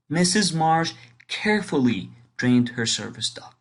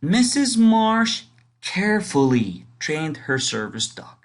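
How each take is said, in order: First: Said in the usual way. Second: Small pause after carefully before trained, Missus raised; pause before the verb. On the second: Shown as a demonstration. Teacher showing a pause after the adverb. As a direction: hold a beat after carefully, then go on. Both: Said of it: "a little pause before you continue".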